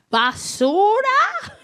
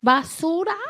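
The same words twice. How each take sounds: First: High, slow, stretched rising question; drawn-out, high incredulous toddler question; mock child's question. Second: Small rising question in Spanish; lightly voiced child asking; grandbaby's Spanish question. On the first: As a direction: imitate a child pointedly asking, voice climbing. Child points at passing son. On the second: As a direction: ask like a curious toddler. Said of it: "he speaks Spanish".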